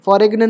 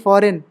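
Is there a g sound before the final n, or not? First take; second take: g sound; no g. First: A g sound is heard before the final n. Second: No g sound is heard before the n. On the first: The speaker calls it wrong. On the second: The speaker calls it right.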